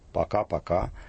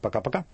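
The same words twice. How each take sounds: First: It is said at a normal, unhurried pace. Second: It is said fast with swallowed, reduced vowels. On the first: It is a native Russian repetition of a farewell. "это делается в обычном темпе речи" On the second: It is a farewell borrowed from English bye-bye. "такое убыстренное «пока-пока» с проглатыванием, редуцированием гласных"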